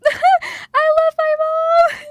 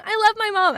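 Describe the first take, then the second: First: Long, loud, high tearful wail; laugh-cry it out, stretching the words; drawn-out sobbing declaration; wailing affection. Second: High tearful declaration with a laugh; brief, choked-up love; tearful affection. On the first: Wails love for mother. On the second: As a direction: say it fondly through tears, pitched up. Tearful declaration, then wailed again. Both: Real, not acted.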